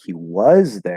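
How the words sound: 'Was' is emphasized with a full vowel. "if I emph- emphasize it"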